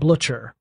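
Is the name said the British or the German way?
British. The name is said in a British way. "the Brits actually pronounce it"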